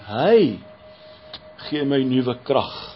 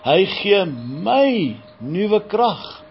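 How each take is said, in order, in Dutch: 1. De klemtoon valt op het woord Hy. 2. De klemtoon valt op het woord my. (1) "wanneer jy die Here in die gedeelte beklemtoon" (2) "dan lê jy weer ander klem"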